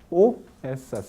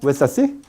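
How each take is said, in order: First: The phrase is spoken slowly. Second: The phrase is spoken quickly. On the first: "En el habla, despacio, lenta" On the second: "En el habla rápida"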